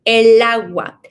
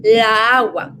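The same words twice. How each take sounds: First: "El agua" with the L sliding into the a; easy linked "El agua". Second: "La agua" with the two a sounds clashing; wrong "La agua", vowels jammed together; la agua, the awkward version. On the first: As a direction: say "El agua" smooth and linked, stressing el. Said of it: "That makes it easier for us to pronounce". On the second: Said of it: "This makes the pronunciation harder". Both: Shown as a demonstration.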